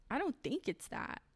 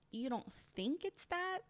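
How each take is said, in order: First: Said in the usual way. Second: Incredulous echo. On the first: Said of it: "he goes". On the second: Real, not acted. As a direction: pitch jumps higher on "that", disbelieving. Incredulous echo of his words.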